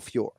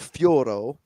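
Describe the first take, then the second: First: The surname is said in a shortened form. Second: The surname is said in a longer form. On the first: The speaker calls it right. "maybe she cuts it short" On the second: The speaker calls it wrong. "I don't hear Fioro"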